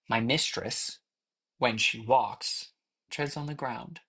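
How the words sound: It is broken up with pauses at the commas.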